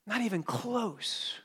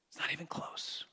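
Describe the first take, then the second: First: Higher and slower, leaning on NOT; slow down and hit "Not" hard; slow emphatic repeat. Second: Whispered aside. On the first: Preacher driving home the point to his congregation, slow and emphatic. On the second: Preacher to his congregation, a hushed whisper. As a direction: drop to a whisper, much softer. Preacher stressing the gap in debts. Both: Real, not acted.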